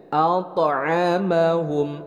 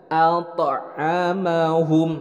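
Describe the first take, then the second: No difference in how they are said.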